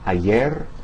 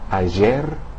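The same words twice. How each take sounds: First: The middle consonant sounds like English y. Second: The middle consonant sounds like s in pleasure. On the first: "similar to the Y in the English word yo-yo" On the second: "the S in the English word like pleasure"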